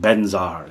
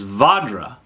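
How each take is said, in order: First: It begins with a B sound, like benzar. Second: It begins with a V sound, like vajra. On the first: The speaker calls it wrong. "you're saying it wrong" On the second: The speaker calls it right. "the Sanskrit is Vajra"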